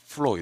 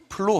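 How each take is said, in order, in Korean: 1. f 소리로 시작해요. 윗니를 아랫입술에 대요. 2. p 소리로 시작해요. 입술을 붙여요. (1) "윗니로 아랫 입술을 깨물어요. 이렇게" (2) "플로우 하면 안 되고요"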